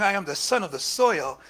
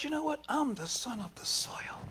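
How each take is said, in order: First: Said in the usual way. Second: Hushed vow. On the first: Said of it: "By saying". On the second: Retold or imitated. Traore answers his attackers in a whispered vow. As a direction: breathe it like a secret oath. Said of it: "But he said".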